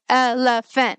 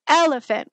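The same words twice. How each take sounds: First: The stress falls equally on every syllable. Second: The stress falls mainly on the first syllable. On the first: This is how a child with apraxia might say the word. The speaker calls it wrong. "make it very robotic sounding, staccato sounding" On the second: This is how a typical child says the word. The speaker calls it right. "We're stressing that first syllable"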